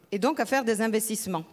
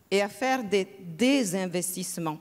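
First: Said in the usual way. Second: "désinvestissements" with the prefix "dés" set apart; stress on DÉS. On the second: Real, not acted. Economist contrasting divestment with investment, stressed "dés".

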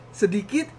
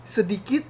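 The two takes are said the same way.

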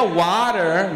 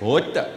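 First: "water" with flapped t and strong final r; American pronunciation. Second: "Water" with crisp t and no final r; South African pronunciation. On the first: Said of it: "if I hear water". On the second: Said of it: "That's how I say it". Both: Shown as a demonstration.

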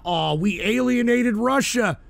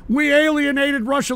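First: Said in the usual way. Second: Mocking echo, pitched higher and rising; incredulous echo. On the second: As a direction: throw the claim back in disbelief. Echoing the caller's claim.

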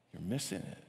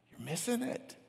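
First: Low, soft, falling; soft low repeat that falls at the end; quiet warning. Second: Very high, soft, rising; soft high plea that rises at the end; high-pitched warning. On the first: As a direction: drop it down to a hushed, grave statement. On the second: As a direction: lift it right up in a hushed voice. First of two contrasting takes. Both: Real, not acted.

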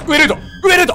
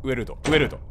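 First: 上ルート shouted high and loud; excited shout. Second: Said in the usual way. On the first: Real, not acted. Gamer urging himself up the route, shouting. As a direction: yell the route out eagerly.

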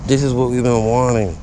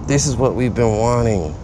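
No difference in how they are said.

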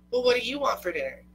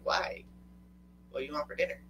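First: High, loud, quick comeback; mock insistent retort. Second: Husband asking plainly. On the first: Partners stuck choosing dinner, insistent mock retort. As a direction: throw the question back higher and faster. Acted dinner question thrown back. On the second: Retold or imitated. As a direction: ask it evenly, at an everyday pitch. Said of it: "And he's all like".

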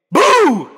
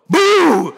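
First: Sudden loud high boo; startling boo. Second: Startling boo. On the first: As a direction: jump out and shout boo. Jump scare at the audience. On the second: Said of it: "Did I scare you that time?". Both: Acted.

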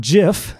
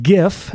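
First: GIF said as "jiff"; soft G. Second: GIF with a hard G, as in "give". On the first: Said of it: "not gif". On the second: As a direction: say gif with a hard g sound at the start. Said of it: "it is pronounced gif". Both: Shown as a demonstration.

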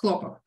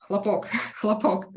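First: Хлопок with the stress on the first syllable, хЛО́пок, meaning cotton; Russian word stress. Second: Хлопок with the stress on the final syllable, хлопО́к, meaning a bang or explosion; Russian word stress. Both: Shown as a demonstration. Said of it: "the difference is only in the way how you stress the word".

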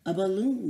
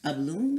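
First: Loud excited cow shout; the cow calls out the idea eagerly. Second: Mild, measured musing; calm observation. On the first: Farm cow shouts her discovery, loud and eager. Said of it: "the cow shouted". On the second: Lynn calmly notes the balloon idea, mild and thoughtful. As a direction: say it thoughtfully, lightly raised. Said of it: "observed Lynn". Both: A narrator's reading.

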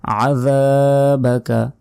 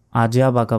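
First: Slow আযাবাকা with throaty ayn; stretched, carefully articulated আযাবাকা; correct ayn. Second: Quick "ajabaka" for আযাবাকা; short vowels and j in আযাবাকা; common mispronunciation. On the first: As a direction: say আযাবাকা with tongue-out dh, long aa. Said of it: "আইনের উচ্চারণ করতে হবে". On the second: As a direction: say আযাবাকা with Bengali j, no ayn. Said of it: "বলা যাবে না". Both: Shown as a demonstration.

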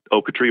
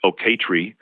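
First: "Oaktree" as OH-kuh-tree, first syllable strongest; stress on first syllable. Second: "Oaktree" as oh-KAY-tree, middle syllable strongest; stress on second syllable. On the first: Linguist showing shifting stress, first syllable of Oaktree stressed. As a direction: hit the OH of "Oaktree", middle reduced to "kuh". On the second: Linguist showing shifting stress, second syllable of Oaktree stressed. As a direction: lean on a long KAY inside "Oaktree". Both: Shown as a demonstration. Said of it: "you're shifting the stress".

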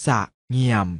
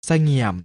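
First: สะเงี่ยม split into สะ and เงี่ยม; short สะ, clear gap, then เงี่ยม; syllable by syllable. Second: Said in the usual way. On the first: Shown as a demonstration. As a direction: sound out สะเงี่ยม in two beats. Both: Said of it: "อ่านว่า".

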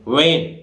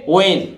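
First: "वैन" said as a plain van, the common mistake; mock the usual wrong "वैन"; wrong pronunciation. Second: "वैन" with silent h, as in when; correct pronunciation. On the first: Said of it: "ये वैन नहीं बोलता है". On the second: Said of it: "इसको कैसे बोलेगे". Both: Shown as a demonstration.

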